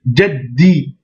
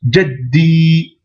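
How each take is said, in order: First: "jaddi" blocked on the d, ending in a shorter i; doubled consonant. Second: "jaddi" with doubled d and long held i; prolonged ending. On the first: Teacher spelling out the shedda, "jaddi" with doubled d. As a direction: stop on "jad", then release "di" without holding it. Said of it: "avec une shedda". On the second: Teacher adding the prolongation, "jaddi" with drawn-out i. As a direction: block the d, then stretch the final i evenly. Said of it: "et une prolongation". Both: Shown as a demonstration.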